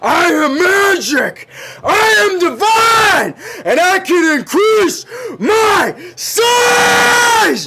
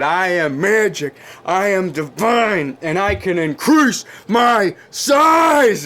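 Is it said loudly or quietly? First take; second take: loudly; quietly. First: It is yelled loudly. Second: It is said at a normal, quieter volume.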